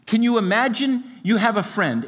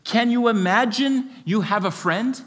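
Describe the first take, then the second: First: Imagine stressed, tune falling at the end; falling question. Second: Imagine lifted, question rising at the end; wondering, open question. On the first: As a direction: say "Can you imagine you have a friend?" with imagine stressed and the end dropping. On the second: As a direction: ask "Can you imagine you have a friend?" with imagine high and the end rising. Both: Shown as a demonstration. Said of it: "Another way of saying it is".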